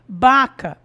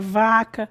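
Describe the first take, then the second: First: The word starts with a b sound. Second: The word starts with a v sound. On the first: "trocando o fonema V por B" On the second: "trocando o fonema V por B"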